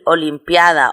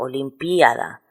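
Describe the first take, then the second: First: The stress falls on the 'a' of 'pia'. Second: The stress falls on the second 'i'. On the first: "no acentuarla" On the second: "acentuarla sobre la i segunda de píada"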